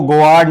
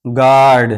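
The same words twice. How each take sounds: First: गोआर्ड as "go-aard", with an extra glide; wrongly sounded U. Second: गार्ड as "gaard", no W glide; silent U. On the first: Teacher shows learners what to avoid, गोआर्ड with U sounded. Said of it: "यहाँ इसको गोआर्ड नहीं पढ़ेंगे". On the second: Teacher repeats guard for learners, गार्ड with silent U. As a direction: say गार्ड with the U dropped. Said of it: "इसको पढ़ेंगे गार्ड". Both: Shown as a demonstration.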